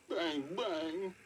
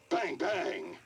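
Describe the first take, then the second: First: It is said in a sad tone. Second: It is said in an angry tone.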